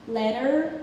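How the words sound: It is said with an American T and R. "we say letter"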